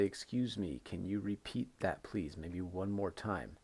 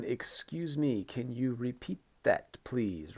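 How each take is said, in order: First: Said in the usual way. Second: Slow, careful polite request, higher pitch. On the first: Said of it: "So you can say". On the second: Shown as a demonstration. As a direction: model a polite question to the teacher. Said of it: "Very important one".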